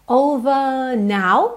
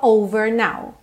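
First: The R in over is not curled. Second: The R in over is curled. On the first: "porque ela não enrola a língua" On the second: "Se você enrolar a língua"

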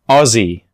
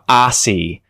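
First: It is said in an Australian accent. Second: It is said in an American accent. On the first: The speaker calls it right. "but I would say this as Aussie" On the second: The speaker calls it wrong. "Americans tend to mispronounce this word all the time. They'll say something like Aussie"

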